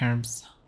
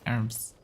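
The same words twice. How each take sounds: First: The word starts with an h sound. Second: The word starts without an h sound. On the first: "It should be herbs" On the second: "But right pronunciation as far as no herbs. Which is weird because there is H there"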